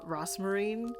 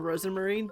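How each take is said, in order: First: The name is said with three syllables. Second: The name is said with four syllables. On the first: The name is being said carelessly. The speaker calls it wrong. "she got used to, like, saying, uh, Rosmarine" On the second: The name is said as it really is. The speaker calls it right. "I always just pronounce it Rosamarine because that's her name"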